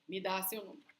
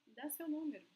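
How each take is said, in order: First: Curt, demanding "Me dá seu número" with a hard stress on "dá"; rude demand. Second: Friendly request. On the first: Teacher showing students the wrong rude way, curt demand. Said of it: "with an intonation to not sound rude. It's not like". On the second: Teacher showing students the polite way, friendly ask. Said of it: "it must be like". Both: Shown as a demonstration.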